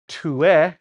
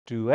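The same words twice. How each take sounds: First: "tue" with a plain English T; hard T. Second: "due" starting between a T and a D; soft T-D. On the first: Teacher showing what we're not saying, "tue" with hard T. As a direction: overdo the T at the start of "tue". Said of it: "nor are we saying". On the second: Teacher showing what we are saying, "due" with T-D sound. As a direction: soften the first sound of "due" towards D. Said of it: "So it's a T D". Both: Shown as a demonstration.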